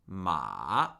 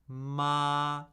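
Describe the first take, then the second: First: The pitch starts high and falls sharply. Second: The pitch stays high and level throughout. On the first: "And fourth tone, falling, starting where the first tone lives" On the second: "First tone, high, flat, and unchanging"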